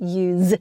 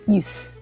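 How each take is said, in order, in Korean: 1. 이 단어는 윙윙거리는 z 소리로 끝납니다. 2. 이 단어는 쉭쉭거리는 s 소리로 끝납니다. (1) "동사는 use" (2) "use 명사는 s 발음이 납니다"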